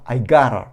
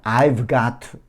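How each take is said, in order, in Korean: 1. “v” 발음이 빠지고 “got to”는 “gotta”가 됩니다. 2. “I have”는 “I've”로 줄어듭니다. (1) "이걸 더 줄여서 I gotta 이렇게 표현합니다" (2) "줄여서 표현하거든요"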